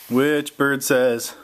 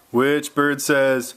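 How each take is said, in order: Both takes have the same delivery.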